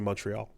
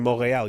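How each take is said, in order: First: It is pronounced with English sounds. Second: It is pronounced with French sounds. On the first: The speaker calls it wrong. "You don't say Montreal" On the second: The speaker calls it right. "if you're saying it in French, you say Montreal"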